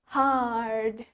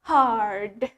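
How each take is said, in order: First: The r sound is pronounced clearly. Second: The r sound is pronounced clearly.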